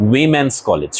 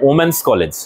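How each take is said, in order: First: উইমেন্স said "wimens", starting with a clear wi sound; correct pronunciation. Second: ওমেন্স said as "omens", the way students wrongly say it; wrong pronunciation. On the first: Teacher to students modelling the right উইমেন্স. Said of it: "কি বলতে হবে? উইমেন্স college". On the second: Teacher to students showing the common wrong ওমেন্স. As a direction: say ওমেন্স like the word omen. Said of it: "ওমেন্স college বলা যাবে না". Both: Shown as a demonstration.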